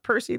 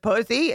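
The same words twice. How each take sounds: First: Said in the usual way. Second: "Pussy" for Percy, with the R missing; toddler mispronunciation. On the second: Retold or imitated. Little boy wanting to play trains, "Pussy" without its R. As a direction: say "Pussy" as a child who can't say R's. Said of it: "he couldn't say R's".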